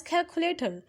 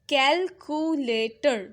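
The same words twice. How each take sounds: First: Said in the usual way. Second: Calculator slowly split as cal, cu, la, tor; syllable by syllable. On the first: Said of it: "we pronounce it as". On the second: Shown as a demonstration. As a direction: sound out calculator in four separate beats. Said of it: "that word is having four syllable".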